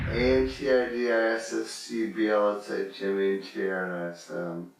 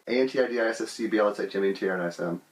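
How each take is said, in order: First: The letters are spelled out slowly. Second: The letters are spelled out very quickly. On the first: "You can slow it down" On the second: "I've memorized how to say it really fast"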